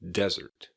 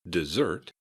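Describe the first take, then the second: First: The stress is on the first syllable. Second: The stress is on the second syllable. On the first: "desert has an emphasis on the first syllable" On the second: "dessert has an emphasis on the second syllable"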